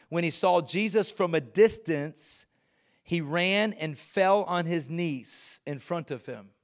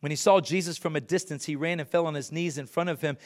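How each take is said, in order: First: Slow, deliberate scripture reading; measured, weighty telling. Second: Fast, brisk scripture recap; hurried retelling; quick reading. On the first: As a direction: let each phrase land. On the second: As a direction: rattle through it quickly. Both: Shown as a demonstration. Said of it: "reread faster".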